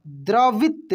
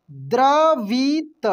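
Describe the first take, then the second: First: Said in the usual way. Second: द्रवित stretched very slowly, each sound apart; slow spelling-out. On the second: Shown as a demonstration. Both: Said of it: "कैसे पढ़ेंगे?".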